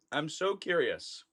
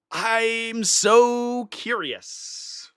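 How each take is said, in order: First: Much softer, under the breath; hushed echo of the thought; quiet aside. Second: Very slow, stretched out; savoring the thought slowly; drawn-out wonder. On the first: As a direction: drop to a murmur to yourself. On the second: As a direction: draw each word out, musing. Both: Real, not acted. Repeats the line twice.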